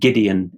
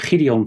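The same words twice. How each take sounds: First: The name is pronounced with English sounds. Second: The name is pronounced with Dutch sounds.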